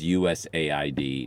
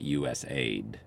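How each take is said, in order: First: AID is spelled out as separate letters. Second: AID is said as the single word aid. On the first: The name is an acronym, not a word about giving aid. The speaker calls it right. "it is USAID" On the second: The name suggests the agency gives aid to other countries. The speaker calls it wrong. "we give aid to other countries. So that's why we're called USAID"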